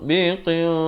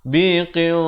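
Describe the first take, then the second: No difference in how they are said.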